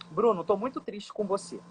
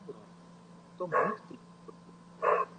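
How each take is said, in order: First: It is said at an ordinary pace and pitch. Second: It is said lower in pitch and slowly. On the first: The sadness is not conveyed. The speaker calls it wrong. "Não adianta nada eu chegar para você e falar assim" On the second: The speaker is sad. The speaker calls it right. "eu vou abaixar e desacelerar"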